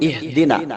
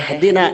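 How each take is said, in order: First: The first vowel sounds like i. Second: The first vowel sounds like e. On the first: The speaker calls it right. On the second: The speaker calls it wrong.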